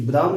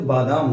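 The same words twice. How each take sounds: First: बादाम with a short first "ba"; wrong short vowel. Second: बादाम with a long first "baa"; correct long vowel. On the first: Teacher rejecting the mistake, बादाम with short "ba". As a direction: say बादाम as "ba-daam". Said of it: "ये बादाम नहीं होता है". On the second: Teacher correcting students, बादाम with long "baa". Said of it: "बादाम होता है". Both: Shown as a demonstration.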